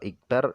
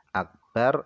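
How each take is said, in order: First: The first vowel is an i sound. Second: The first vowel is an a sound. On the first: "au kasaroha" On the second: "fathahal hamzata"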